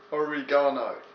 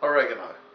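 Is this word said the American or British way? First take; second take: British; American. First: The word is said in a British way. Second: The word is said in an American way. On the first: The speaker calls it right. "this is even spelt like they do it in England" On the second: The speaker calls it wrong. "Not oregano. Unless you're American"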